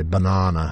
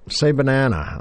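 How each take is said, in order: First: "Banana" with a long British ah, ba-NAH-na; "Banana" the Mancunian British way, broad a in the middle. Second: "banana" with an American flat a, ba-NA-na as in "man"; "Say banana" the American way, open front a in "banana". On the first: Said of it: "and I'd say". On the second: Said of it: "people saying to me". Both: Retold or imitated.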